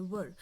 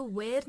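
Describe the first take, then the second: First: "were" said with a short neutral schwa vowel, "wur", falling; right take, "were" as "wur", clipped and falling; correct pronunciation. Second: "were" said like "wear", open e vowel with rising tune; wrong take, "were" rhymes with "air", rising; wrong pronunciation. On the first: Teacher models the correct "were" for students. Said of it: "इसको हम were पढ़ते हैं". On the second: Teacher shows students the wrong way to say "were". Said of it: "इसको were नहीं पढ़ते हैं". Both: Shown as a demonstration.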